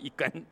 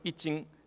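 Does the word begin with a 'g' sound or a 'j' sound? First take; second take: g sound; j sound. First: The word begins with a 'g' sound. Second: The word begins with a 'j' sound. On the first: This is the standard Mandarin reading. "这个普通话正确的发音应该是一根" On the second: This is the northern dialect reading. "这个北方人念斤一斤"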